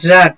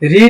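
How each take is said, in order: First: The vowel is short, like 'red'. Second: The vowel is long, like 'reed'. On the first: It is the past form. "B two B three রাট রাট বলবেন" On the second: It is the present form. "আপনি যদি B one বলেন রিড বলবেন"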